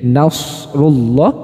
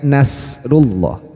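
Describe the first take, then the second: First: The s is a heavy, hissing sound. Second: The s is thin, with spread smiling lips. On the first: The speaker calls it right. "Jadi nasrullah" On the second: The speaker calls it wrong. "bukan nasrullah"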